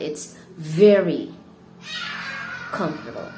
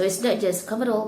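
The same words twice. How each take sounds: First: "very" loud and stretched, then a long pause before "comfortable"; big emphatic "very" with a dramatic gap after it; stress on very. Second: Said in the usual way. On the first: Shown as a demonstration. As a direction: punch "very", hold off, then let the next word fall. Teacher demonstrates intensifying with very.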